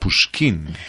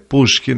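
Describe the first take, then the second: First: The stress is on the last syllable. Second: The stress is on the first syllable. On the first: This is the French pronunciation. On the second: This is the Russian pronunciation.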